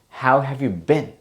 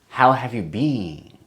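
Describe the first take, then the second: First: The vowel in 'been' is short. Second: The vowel in 'been' is long. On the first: The speaker calls it right. "It's kind of a short word, short sounding word" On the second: The speaker calls it wrong. "a lot of Japanese people say been"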